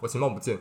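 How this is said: It sounds cold and annoyed.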